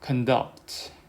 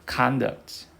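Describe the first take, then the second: First: The stress is on the second syllable. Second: The stress is on the first syllable. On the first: It is used as a verb. "동사일 때는 여기 두셔서" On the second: It is used as a noun. "명사일 때는 앞에 두셔서"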